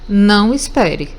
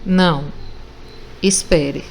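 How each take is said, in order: First: It is said without any pause. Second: There is a pause after the first word.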